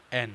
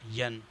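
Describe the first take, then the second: First: "این" starting on a clean e vowel, en; correct letter N. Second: "ین" with a y-glide in front, yen; wrong "ین" beginning on a y sound; mispronounced N. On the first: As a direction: clear "این" with no y-glide. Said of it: "این کی جگہ ین". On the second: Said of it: "یہ pronunciation غلط ہے". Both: Shown as a demonstration.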